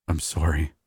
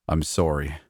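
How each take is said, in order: First: A voice cracking with guilt. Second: Said in the usual way. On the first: A narrator's reading. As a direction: let the voice break on the apology. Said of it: "his voice cracking".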